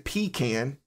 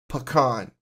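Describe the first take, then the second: First: The first syllable is a long 'pee' sound. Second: The first syllable is a short 'puh' sound. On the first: The speaker calls it wrong. "almost like you're talking about more of something that you use when you're bedridden" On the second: The speaker calls it right. "there's no p. It's pa"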